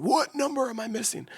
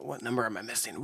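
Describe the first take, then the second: First: Much higher put-on voice; high silly voice. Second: Said in the usual way. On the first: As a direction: squeak the question up high. Repeats question in new voice.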